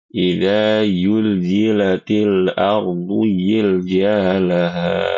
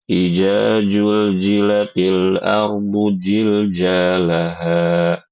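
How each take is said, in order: First: The zai sounds are said as y. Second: Every zal and zai is said as j. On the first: "mau membaca huruf zai itu seperti huruf ya" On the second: "mengubah seluruh huruf-huruf zal dan zai dengan huruf jim"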